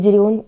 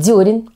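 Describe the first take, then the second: First: The stress is on the second syllable. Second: The stress is on the first syllable. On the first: The speaker calls it wrong. "а не дерен" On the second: The speaker calls it right. "правильно все-таки говорить дерен"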